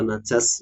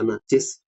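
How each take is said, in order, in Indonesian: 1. Suku kata kedua memiliki vokal a. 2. Suku kata kedua memiliki vokal i. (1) "bisa dibaca najas" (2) "bisa dibaca najis"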